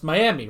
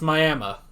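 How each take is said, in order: First: The name ends with an "ee" sound. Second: The name ends with an "uh" sound. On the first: The speaker calls it wrong. "Nope, that's not Miami" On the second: The speaker calls it right. "That I becomes an A"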